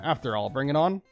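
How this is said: The voice rises at the end like a question. It sounds like a question. The speaker calls it wrong.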